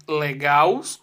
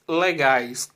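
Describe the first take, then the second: First: "legaus" with an -aus ending; wrong plural. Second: "legais" with an -ais ending; correct plural. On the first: Teacher testing pupils with the wrong plural, "legaus" ending in -aus. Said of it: "Você diz legaus ou você diz legais?". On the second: Teacher offering pupils the right plural choice, "legais" ending in -ais. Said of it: "Você diz legais". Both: Shown as a demonstration.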